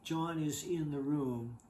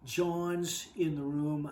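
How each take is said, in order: First: John is is said as two full words. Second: John is is contracted into one word. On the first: The speaker calls it wrong. "They don't say" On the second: The speaker calls it right. "They say"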